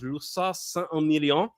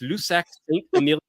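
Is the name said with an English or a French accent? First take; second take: French; English. First: It is said with a French accent. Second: It is said with an English accent. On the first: "If you want to try a nice French pronunciation" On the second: "if you want to say it with an English accent"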